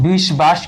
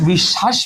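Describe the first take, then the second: First: বিশ্বাস with the ব sounded, bish-bash; wrong pronunciation. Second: বিশ্বাস as bish-shash, ব silent, স doubled; right pronunciation. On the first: Teacher showing students the wrong way, বিশ্বাস with the ব sounded. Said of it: "বিশ্বাস কিন্তু উচ্চারণ আমরা করি না". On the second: Teacher showing students the right way, বিশ্বাস with doubled স. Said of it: "এখানে কি বলি?". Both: Shown as a demonstration.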